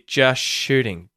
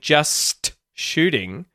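First: The T at the end of 'just' is dropped and the S blends into SH. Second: The T at the end of 'just' is clearly pronounced. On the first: "you'll hear just shooting" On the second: "instead of saying just shooting"

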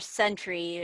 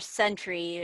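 First: The word sounds like 'sentry'. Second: The same.

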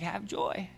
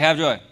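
First: It sounds sincere and genuinely joyful. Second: It sounds forced and stern, not joyful.

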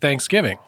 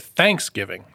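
First: The stress is on the second syllable. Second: The stress is on the first syllable. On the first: "as we say in the United States" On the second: "they put the emphasis on the first"

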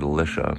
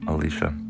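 First: The name is said the common way. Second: The name is said like a woman's name. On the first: "Some people pronounce it Elisha" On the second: "making it sound like a woman's name"

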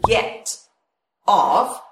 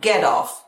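First: The words are separate with a crisp t. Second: The words link with a soft flapped t. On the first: "Hay có chữ get off" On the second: "nối thành là get off"

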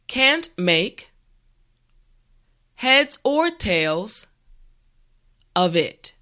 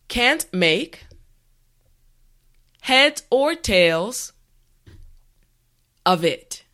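The two takes are said the same way.

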